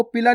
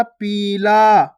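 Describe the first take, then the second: First: Short i in पीला, like पिला; wrongly short vowel. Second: Long drawn ee in पीला; stretched long ee. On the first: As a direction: rush the first vowel of पीला. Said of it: "आपको पीला नहीं पढ़ना". (पीला को छोटी इ से, बिना खींचे) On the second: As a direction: stretch both vowels of पीला. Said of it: "बड़ी ई की मात्रा को खींच के पढ़ना है". (पीला में ई खींचकर) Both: Shown as a demonstration.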